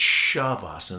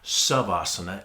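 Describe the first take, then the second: First: The word begins with an SH sound. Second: The word begins with a plain S sound. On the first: The speaker calls it right. "There's an S H sound to it" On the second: The speaker calls it wrong. "It's not Savasana"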